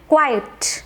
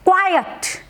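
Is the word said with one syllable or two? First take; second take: one; two. First: The word is squeezed into one syllable. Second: The word is said with two syllables. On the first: The speaker calls it wrong. "बहुत से लोग इस word को मिस pronounce करते हैं और बोलते हैं" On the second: The speaker calls it right. "इसकी राइट करेक्ट प्रोनाउंसिएशन है"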